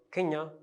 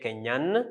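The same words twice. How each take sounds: First: "Kenya" left open with no final N; masculine, silent N. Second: "Kenyan" with a clearly sounded final N; feminine, N pronounced. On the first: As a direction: end "Kenya" on a nasal vowel, N unspoken. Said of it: "we don't pronounce the N". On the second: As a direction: close "Kenyan" on a held N. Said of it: "E gives N the sound N". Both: Shown as a demonstration.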